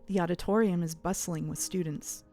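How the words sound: It is said in a put-on narrator voice.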